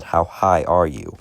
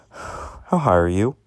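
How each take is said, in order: First: Slow, with "high" leaned on and falling; stress on high. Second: Said in the usual way. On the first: Retold or imitated. Cop repeats to stoner, stressing "high". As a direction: spell out "high" so the stoner gets it. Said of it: "h-, I said". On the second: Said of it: "I said".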